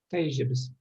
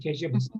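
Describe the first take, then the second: First: The word is said in its full, uncontracted form. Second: The word is said in a shortened, contracted form. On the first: This is the literary form. "Таижибес лучше сказать" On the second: This is the everyday spoken form. "я бы коротко сказал"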